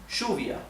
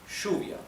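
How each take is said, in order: First: It is said in Rioplatense Spanish, with an sh sound. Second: It is said in Rioplatense Spanish, with an sh sound.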